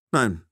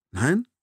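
First: NEIN falling, as a statement; firm NEIN. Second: NEIN rising sharply at the end; questioning NEIN. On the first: Captor confirms to the narrator, NEIN falling and final. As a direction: answer NEIN with a settled, falling tone. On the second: Narrator checks an unexpected answer, NEIN rising in surprise. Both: A narrator's reading.

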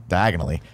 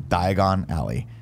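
First: "diagonally" run together as one word; quick, joined-up "diagonally"; said very fast. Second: "Diagon Alley" said slowly as two separate words; deliberate, slow "Diagon Alley"; separated words. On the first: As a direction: say "diagonally" quickly, with no break inside it. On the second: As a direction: spell out "Diagon Alley" slowly, a clear break before "Alley". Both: Shown as a demonstration. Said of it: "if you say it very fast".

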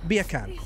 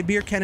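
First: "Beer can" in a British accent, no r; British "Beer can", sounding almost like bacon. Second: Said in the usual way. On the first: Shown as a demonstration. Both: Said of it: "Say beer can in a British accent".

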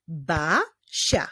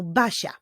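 First: "Basia" divided into Ba, sia; two beats on "Basia" with a pause between; syllable by syllable. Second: Said in the usual way. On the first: Shown as a demonstration. Teacher clapping out a girl's name, "Basia" in separated syllables. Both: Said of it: "zacznijmy wyklaskiwać sylaby w imieniu".

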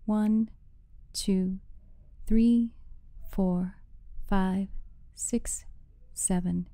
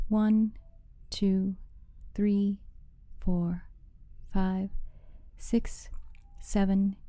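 Both takes have the same delivery.

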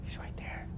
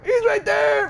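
First: Breathy hushed whisper, much softer; frightened whisper. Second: Much higher, louder scared yell; panicked high shout; frightened shout. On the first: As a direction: whisper so the monster can't hear. Hiding near the monster. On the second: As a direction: scream the warning. Spots the monster. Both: Real, not acted.

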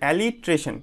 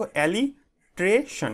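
First: Said in the usual way. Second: "alliteration" slowly in pieces, alli - tre - shon; broken into syllables. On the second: Shown as a demonstration. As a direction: sound out "alliteration" with gaps between the parts. ("alliteration" ভেঙে ভেঙে ধীরে উচ্চারণ) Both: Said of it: "এইভাবে উচ্চারণ করবে".

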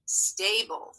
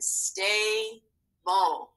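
First: Said in the usual way. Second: "stable" in two slow, separate syllables; split into syllables. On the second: Shown as a demonstration. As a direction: break "stable" apart: stay, pause, bull. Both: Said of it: "So let's scoop this word".

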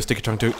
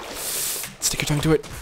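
First: Said in the usual way. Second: Slow breathy whisper. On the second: Acted. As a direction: hush it like a secret. Repeats phrase whispered.

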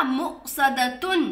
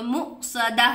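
First: मुक़सदतुन with तुन at the end, slow; full reading. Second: मुक़सदा ending in हा; pausal form. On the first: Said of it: "आप रुक गए तो मुक़सदा". (मुक़सदतुन पूरा, धीरे) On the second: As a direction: stop on मुक़सदा, with no तुन. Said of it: "आप रुक गए तो". (रुककर मुक़सदा, हा की आवाज़) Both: Shown as a demonstration.

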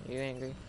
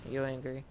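The two takes are said the same way.

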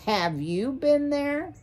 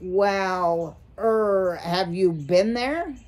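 First: High-pitched, rising, insistent question; shrill demand. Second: Drawn-out, hesitating question; hesitant. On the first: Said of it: "Mister Ocax demanded shrilly". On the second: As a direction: stall before daring to ask. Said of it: "Mister Ocax hesitated". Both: A narrator's reading.

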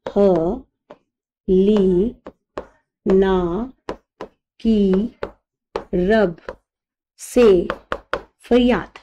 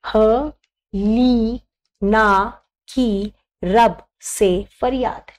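First: Each syllable apart with long pauses; dictating to students word by word. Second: Slow, spaced-out dictation; teacher dictating a trick slowly. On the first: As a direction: spell it out one word at a time. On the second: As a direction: say it very slowly so they can write. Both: Shown as a demonstration. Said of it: "मैं बहुत आराम से बोल रही हूँ".

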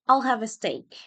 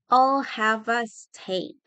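First: Said in the usual way. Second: Slow, each word stretched; slow teaching pronunciation; slow model. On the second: Shown as a demonstration. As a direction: draw it out for learners. Teacher models phrase slowly.

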